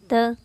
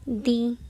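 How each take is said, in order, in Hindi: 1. यह शब्द छोटे 'uh' स्वर पर खत्म होता है। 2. यह शब्द लंबे 'ee' स्वर पर खत्म होता है। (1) "जिन शब्दों का पहला अक्षर कॉन्सोनेंट ... टी एच ई का उच्चारण क्या होगा?" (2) "जिन शब्दों का पहला अक्षर स्वर होगा ... उसका उच्चारण क्या होगा?"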